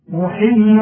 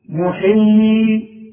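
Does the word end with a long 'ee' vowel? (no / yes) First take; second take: no; yes. First: The word ends in a short i vowel. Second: The word ends in a long ee vowel. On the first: The word runs on into the next word. "ساكنة وبعدها جه حرف ساكن سقطت لفظا" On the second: The reader stops on the word. "أما في حالات الوقف تثبت الياءات"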